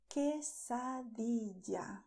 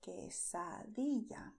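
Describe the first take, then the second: First: "quesadilla" slow, ending in -dee-ja. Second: "quesadilla" slow, ending in -dee-ya. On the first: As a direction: give "quesadilla" a hard English j for ll. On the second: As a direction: soften the ll of "quesadilla" to y. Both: Shown as a demonstration.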